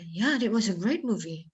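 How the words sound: It is said in a genuine, sincere tone. The movie really was great. "Berarti beneran kayak gitu"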